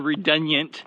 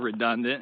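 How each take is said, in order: First: The word is said in an imitated, quirky pronunciation. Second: The word is said in the ordinary pronunciation.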